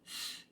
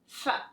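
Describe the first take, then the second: First: The consonant is said alone with no vowel. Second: A short uh vowel follows the consonant. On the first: The speaker calls it right. "instead of saying f" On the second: The speaker calls it wrong. "adding a vowel sound to the end ... that's called a schwa"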